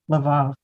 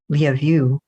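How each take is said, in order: First: The name sounds like Laval, two syllables. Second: The name sounds like the words love you. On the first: This is how the speaker had been saying it. The speaker calls it wrong. "This whole time I've been saying Laval" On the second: This is how it is said in Ukraine. The speaker calls it right. "in Ukraine, which is where it is now, it's Lyavu, which sounds like love you"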